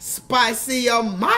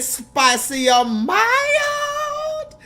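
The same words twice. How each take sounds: First: A hint of the drive-thru lady, slightly slow; light mock of the Louisiana drive-thru question; lighter imitation. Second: Very high, very slow sing-song Louisiana drive-thru voice; mock Louisiana drive-thru lady asking spicy or mild; imitating the drive-thru lady. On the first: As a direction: toss off a quick echo of the cashier. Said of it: "Somebody put that in the chat". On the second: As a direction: stretch it way out like the cashier. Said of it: "She said".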